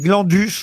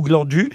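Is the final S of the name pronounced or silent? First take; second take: pronounced; silent. First: The final S sound is pronounced. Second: The final S sound is silent. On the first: "Je sais pas si je dois prononcer le S ou pas" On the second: "ou pas"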